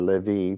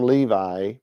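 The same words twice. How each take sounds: First: The name has a Hebrew-style pronunciation. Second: The name has an English-style pronunciation. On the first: The speaker calls it right. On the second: The speaker calls it wrong.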